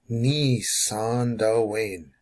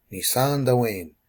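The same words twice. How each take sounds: First: Very slow, stretched "Ni san Dwayne"; syllable by syllable. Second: Said in the usual way. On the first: Shown as a demonstration. Teacher breaking down climb down for learners, very slow syllables. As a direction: draw out each syllable of the phrase. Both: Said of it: "The syllable is gonna break here".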